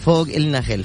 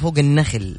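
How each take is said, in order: First: It is said as two words, 'ilna khill'. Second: It is said as one word, 'an-nakhl'. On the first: The singer has a close friend up there. The speaker calls it right. "فوق بالشامي إلنا، يعني إلنا لإلنا، لدينا خل" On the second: The singer is on top of the palm trees. The speaker calls it wrong. "الناس تظن يقولوا فوق النخل"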